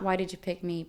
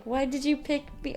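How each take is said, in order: First: Said in the usual way. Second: Higher pitched indignant question, tone kept soft. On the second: Shown as a demonstration. Imagining scolding the husband, indignant and high. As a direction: ask it like an upset accusation. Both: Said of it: "Or I guess not".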